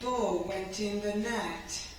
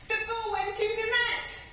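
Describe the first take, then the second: First: The voice sounds sad and low. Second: The voice sounds excited and lively.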